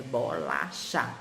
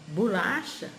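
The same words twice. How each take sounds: First: "bolacha" as "bô-lá-chá", every syllable full; spelling pronunciation. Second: "bolacha" as "bulácha"; spoken pronunciation. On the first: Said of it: "mas escreve". ("bolacha" como se escreve, "bô-lá-chá") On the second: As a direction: say "bolacha" naturally, first vowel as "u". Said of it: "A gente fala". ("bolacha" como se fala, "bulácha") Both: Shown as a demonstration.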